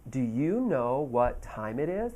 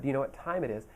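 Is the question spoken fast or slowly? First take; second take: slowly; fast. First: The question is spoken slowly and carefully. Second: The question is spoken quickly at normal speed. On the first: This is slowed down for a language learner. "They aren't going to slow down for you" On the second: This is how people really ask on the street. "I said it really quickly"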